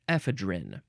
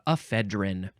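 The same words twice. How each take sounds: First: It is said the way British speakers say it. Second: It is said in the speaker's usual American way.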